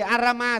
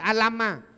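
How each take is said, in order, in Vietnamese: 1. Phụ âm ở giữa là âm R. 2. Phụ âm ở giữa là âm L. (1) "Thay vì Arama" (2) "cho nên là mượn cái bằng L họ phát âm Alama"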